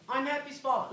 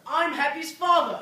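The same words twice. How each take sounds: First: It is said at a normal, quieter volume. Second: It is said louder.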